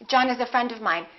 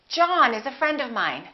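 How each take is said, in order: First: The sentence is rushed out very quickly. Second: The sentence is spoken smoothly at a relaxed pace. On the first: The speaker calls it wrong. "they think they have to speak really fast" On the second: The speaker calls it right. "linked smoothly"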